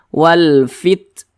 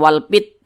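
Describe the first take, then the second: First: The final t has a light puff of breath. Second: The final t has no puff of breath. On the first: The speaker calls it right. "seperti alirannya itu seperti memercik saja. Kecil" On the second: The speaker calls it wrong. "jangan dibaca wal fit"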